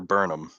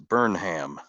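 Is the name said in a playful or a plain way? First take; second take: plain; playful. First: The name is said in a plain, ordinary way. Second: The name is said in a playful, jokey way.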